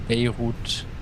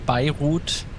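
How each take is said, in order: First: It is pronounced the British way. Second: It is pronounced the German way. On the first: "And in London, they say, I don't know, Bay, Beirut" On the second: "In Germany, they say Beirut"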